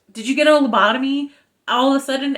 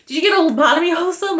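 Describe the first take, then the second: First: Halting, clipped Shatner-style cadence; a mild Shatner impression; William Shatner. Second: Higher, louder and very fast; a rapid incredulous rant; exasperated outburst. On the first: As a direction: chop it up like Captain Kirk. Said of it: "I said that like William Shatner". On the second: Shown as a demonstration. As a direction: rattle it off in disbelief. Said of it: "but here we go".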